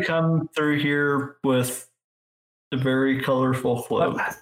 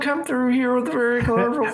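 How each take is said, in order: First: It is said in the speaker's ordinary voice. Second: It is said in a put-on character voice.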